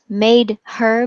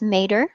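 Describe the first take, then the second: First: The h sound in her is pronounced. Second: The h sound in her is dropped.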